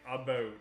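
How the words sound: The first vowel sounds like 'uh'. This is the American way of saying it. "Where you're like"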